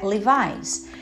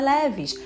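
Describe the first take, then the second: First: The name is said the American way, like 'Levi's'. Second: The name is said the Brazilian way, like 'leves'. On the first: The speaker calls it right. "é Levi's" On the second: The speaker calls it wrong. "não é leves"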